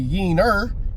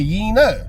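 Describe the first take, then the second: First: The word ends with an r sound. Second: The word ends with an open vowel. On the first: The speaker calls it wrong. "Just don't say it with an E R" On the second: The speaker calls it right. "Say it with an A"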